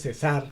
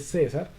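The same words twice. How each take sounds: First: The stress is on the last syllable. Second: The stress is on the first syllable. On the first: The speaker calls it wrong. "no dice César" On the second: The speaker calls it right. "tiene acento en la penúltima sílaba"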